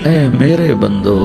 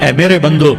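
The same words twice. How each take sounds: First: It is said in a tender, loving tone. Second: It is said in a plain, unaffectionate tone. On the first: The speaker calls it right. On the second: The speaker calls it wrong.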